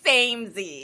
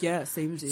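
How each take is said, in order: First: Imagined samesies delivery. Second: Low, quiet, casual aside; understated, lower and softer; offhand samesies. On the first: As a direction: stretch it out as a mock catchphrase. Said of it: "I picture being like". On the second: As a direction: toss it off softly under the breath. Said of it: "Not like". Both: Retold or imitated.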